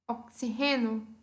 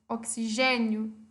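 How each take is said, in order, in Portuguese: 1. Tem a sílaba tônica do espanhol. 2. Tem a sílaba tônica do português.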